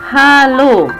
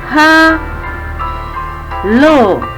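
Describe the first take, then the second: First: The word is said whole without a pause. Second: The word is split by a pause. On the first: This is the original sound. "Bunyi asli pada detik ke satu dan detik kedua" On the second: This is the sound heard with reverberation. "Jadi ada jedanya. Ada jeda satu detik"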